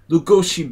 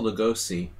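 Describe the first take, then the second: First: The surname has a Hungarian pronunciation. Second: The surname has an American pronunciation. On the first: The speaker calls it right. "Bela is not an old school name. Lugoshi Bela" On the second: The speaker calls it wrong. "In America, they say um, Bela Lugosi. That's how you say it"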